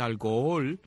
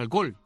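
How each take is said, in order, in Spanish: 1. Las dos o se dicen por separado. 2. Las dos o se unen en una sola vez. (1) "Yo soy de los idiotas que dice alcohol" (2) "la gente dice alcohol de una sola vez así, de un solo tirón"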